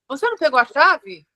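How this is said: It is said in a sharp, scolding tone. It blames the listener for forgetting the key. "eu já briguei"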